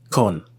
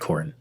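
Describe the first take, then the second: First: The word is said without an r sound. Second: The word is said with an r sound. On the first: The speaker calls it right. "Con, not corn" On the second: The speaker calls it wrong. "not corn"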